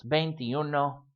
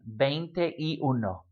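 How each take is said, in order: First: Veintiuno run together without gaps; said as one word. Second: Slow veinte y uno, three separate words; broken into words. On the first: Teacher showing the one-word form, veintiuno run together. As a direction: join veintiuno into a single word. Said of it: "frequently written as one word". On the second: Teacher showing you can breathe mid-number, slow separate words. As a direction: spell out veinte, y, uno slowly with gaps. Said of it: "stop and breathe in the middle". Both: Shown as a demonstration.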